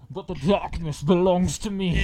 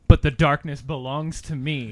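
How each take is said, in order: First: It is said in a put-on Bane voice. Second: It is said in a plain voice.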